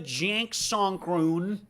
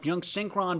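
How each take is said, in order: First: The vowel sounds are strangely distorted. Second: The vowel sounds are pronounced normally.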